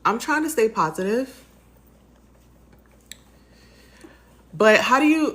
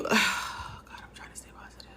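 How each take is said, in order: First: Higher and cracking through tears; voice breaking. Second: A sighed, barely voiced whisper; almost out of voice, whispering through tears; tearful whisper. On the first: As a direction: try to sound upbeat while the tears break through. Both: Real, not acted. Breaking down on camera.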